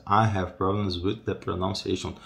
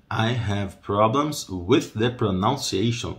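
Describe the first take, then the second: First: Said in the usual way. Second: Slow modelling. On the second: Shown as a demonstration. Same sentence slowed for learners.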